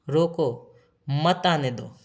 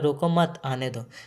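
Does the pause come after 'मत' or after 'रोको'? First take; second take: after रोको; after मत. First: The pause comes after the word रोको. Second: The pause comes after the word मत.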